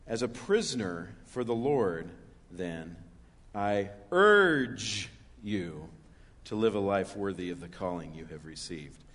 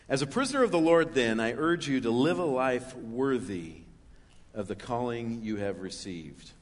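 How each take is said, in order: First: It is read with strong emphasis on words. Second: It is read plainly, without special emphasis.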